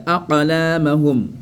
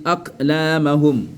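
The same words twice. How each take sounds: First: "aqlamahum" with echoed q, a-qa-laamahum; qalqala. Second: "aqlamahum" with stopped k, ak-laamahum; no echo after ak in "aqlamahum"; without qalqala. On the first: Teacher shows it avec qalqala, echoed. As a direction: slowly bounce the q in "aqlamahum". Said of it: "Avec qalqala". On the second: Teacher shows what is not said, without qalqala. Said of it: "On n'a pas dit". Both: Shown as a demonstration.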